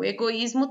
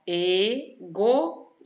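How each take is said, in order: First: Said in the usual way. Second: Slow "Egoísmo" as e, go, ís, mo; syllable by syllable. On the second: Shown as a demonstration. Teacher showing where the hiatus falls, syllable by syllable. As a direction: pause after each syllable of "Egoísmo".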